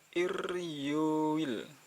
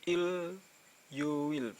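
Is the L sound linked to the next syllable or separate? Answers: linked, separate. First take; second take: linked; separate. First: The L sound carries over into the next syllable. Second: The L sound ends the first syllable separately. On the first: The speaker calls it right. "ir ir iryuil" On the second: The speaker calls it wrong. "bukan il yuil"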